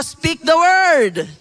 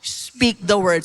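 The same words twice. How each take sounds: First: "Speak the word." loud and slow; emphatic call-and-response; loud repeat. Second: Said in the usual way. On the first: Shown as a demonstration. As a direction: drill it into your neighbour. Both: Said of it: "Sabi mo sa katabi mo".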